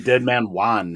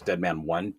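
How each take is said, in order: First: The last word sounds like 'wahn', with an open vowel. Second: The last word sounds like the number one. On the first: The name is taken as a Spanish first name. The speaker calls it wrong. "quit saying Juan" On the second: The name uses the past tense of win. The speaker calls it right. "it's winning in past tense"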